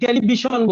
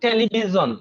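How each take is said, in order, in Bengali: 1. শেষ স্বরধ্বনির আগের ব্যঞ্জনটি 'sh'। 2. শেষ স্বরধ্বনির আগের ব্যঞ্জনটি 'zh'। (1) "এখন দেখেন আমরা কি বলি, টেলিভিশন বলি" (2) "শন হয় না জন হয়?"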